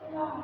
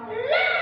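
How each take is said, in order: First: The voice drops lower than before. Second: The voice is raised to a high pitch. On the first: The child is starting to give up. "suaranya turun dari nada yang sebelumnya" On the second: The child is angry and bored. "ketika anak suaranya tinggi"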